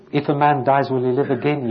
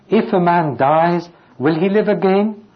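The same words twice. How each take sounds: First: Said in the usual way. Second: Higher, louder searching question with a rising end; pleading question. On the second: Shown as a demonstration. Preacher reading Job's question to the congregation, raised and rising. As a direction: ask it as Job would, reaching up. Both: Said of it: "He's answering his own question".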